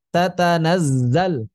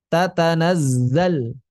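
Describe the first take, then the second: No difference in how they are said.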